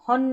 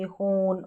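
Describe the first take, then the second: First: The vowel is short and open, like 'hon'. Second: The vowel is a long 'oh' sound. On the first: The speaker calls it wrong. "हॉन नहीं पढ़ेंगे" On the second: The speaker calls it right. "Long pronunciation"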